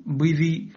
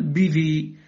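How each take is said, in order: First: "بذي" with rounded, w-like thick b; wrongly heavy ba. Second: "بذي" with clean b and clear i; light ba. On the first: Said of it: "لا تقل". (تفخيم باء "بذي") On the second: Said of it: "بل". (ترقيق باء "بذي") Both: Shown as a demonstration.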